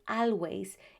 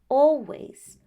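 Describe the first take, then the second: First: The first vowel does not sound like 'all'. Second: The first vowel sounds like 'all'. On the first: The speaker calls it wrong. "the pronunciation is not always" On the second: The speaker calls it right. "it's always"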